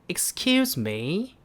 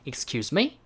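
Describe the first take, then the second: First: The pitch falls at the end. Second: The pitch rises at the end. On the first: "영국식은 아까 올리는 게 아니라 조금 내려간다" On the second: "미국식 같은 경우에는 질문을 하는 거는 ... 약간 올리는 느낌"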